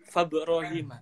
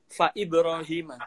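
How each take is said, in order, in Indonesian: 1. Ibrahim disambung ke fa tanpa hentian. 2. Terdengar hentian glotal sebelum Ibrahim. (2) "di situ hamzahnya dibaca"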